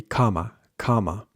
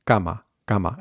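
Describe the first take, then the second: First: Cama with a breathy English k; aspirated k on cama; English-style cama. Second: Cama with unaspirated k, as in scar; muted k on cama; Spanish cama. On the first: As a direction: puff of air after the c in cama. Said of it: "more English way to pronounce it". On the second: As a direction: say cama with no puff of air. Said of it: "we can remove that S". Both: Shown as a demonstration.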